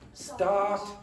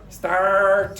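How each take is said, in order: First: The R is dropped and the vowel is long. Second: The R is clearly pronounced after the vowel. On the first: The speaker calls it wrong. "if you're from London, sometimes they will say start, start. So what happens is the R disappears, but this vowel becomes long" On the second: The speaker calls it right. "pronounce the R. So say start"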